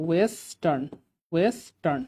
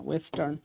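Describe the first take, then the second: First: ওয়েস্টার্ন slowly split as "wesss-tarn"; syllable-by-syllable. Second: Said in the usual way. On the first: Shown as a demonstration. Teacher showing the "we" sound, ওয়েস্টার্ন slowly broken up. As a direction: stretch the first syllable of ওয়েস্টার্ন, then "tarn". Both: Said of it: "ওয়ে মানে হচ্ছে ধরেন ওয়েস্টার্ন".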